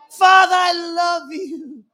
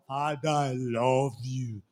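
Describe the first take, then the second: First: It sounds tender and childlike. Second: It sounds stiff and formal.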